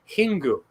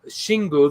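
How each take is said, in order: First: The word begins with an H sound. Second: The word begins with an SH sound. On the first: The speaker calls it right. "I think it's called Hingu" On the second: The speaker calls it wrong. "we pronounce it Shingu because it's from China, but it's actually not that at all"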